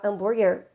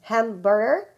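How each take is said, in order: First: The word is pronounced with Portuguese sounds. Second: The word is pronounced with English sounds. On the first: The speaker calls it wrong. "Se você falar hambúrguer, eles não vão te entender" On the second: The speaker calls it right. "Então ficaria hamburger"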